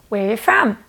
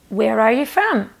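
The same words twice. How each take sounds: First: It is said quickly. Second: It is said at a normal speed.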